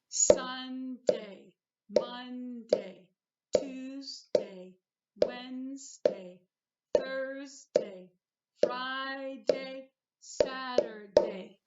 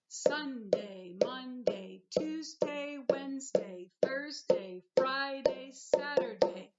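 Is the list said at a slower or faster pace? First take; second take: slower; faster. First: The days are said at a slower pace. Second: The days are said at a faster pace.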